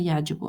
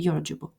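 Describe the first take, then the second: First: The first syllable has an a vowel. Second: The first syllable has a u vowel. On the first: The speaker calls it wrong. "Здесь написано фатха" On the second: The speaker calls it right. "На самом деле ... Правильнее говорить"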